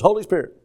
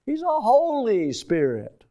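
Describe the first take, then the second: First: HOLY SPIRIT run together quickly, tossed off; blurred past. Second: HOLY drawn out slowly and pitched high; stress on HOLY. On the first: Preacher showing how people gloss over the name, "Holy Spirit" blurred past. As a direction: rush through "Holy Spirit" without weighting HOLY. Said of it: "Why don't we just blur by". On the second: Preacher stopping the church on one word, slow stress on "Holy". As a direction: linger emphatically on the word "Holy". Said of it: "The emphatic word". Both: Shown as a demonstration.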